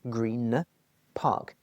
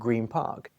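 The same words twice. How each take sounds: First: Green ends with a clear N sound. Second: Green ends with an M sound. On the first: "Green with an N" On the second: "when we say it quickly"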